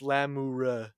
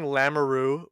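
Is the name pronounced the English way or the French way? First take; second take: French; English. First: The name is pronounced in a French way. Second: The name is pronounced in an English way. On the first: The speaker calls it right. "It's Lamoureux" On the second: The speaker calls it wrong. "which is definitely the wrong pronunciation"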